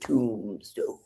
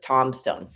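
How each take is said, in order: First: The first syllable is said like 'toom'. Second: The first syllable is said like 'tom'. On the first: This is the town's usual name. The speaker calls it right. "instead of Tombstone" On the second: This is how callers from other countries say it. The speaker calls it wrong. "they say Tomstone, because they can't, the B throws them off"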